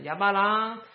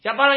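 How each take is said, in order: First: The name is called in a tentative, probing tone. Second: The name is called in an urgent, tense tone.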